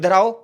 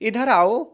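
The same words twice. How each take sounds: First: It is said in a harsh, angry tone. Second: It is said in a warm, gentle tone. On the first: The person is being called with contempt and anger. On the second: The person is being called with love.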